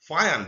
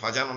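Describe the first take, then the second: First: The middle consonant is a y sound. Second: The middle consonant is a j sound. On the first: The speaker calls it right. "যেটার একটু ইয়া টাইপের উচ্চারণ হয়" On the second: The speaker calls it wrong. "এটাকে ফাজান অনেকে বলে"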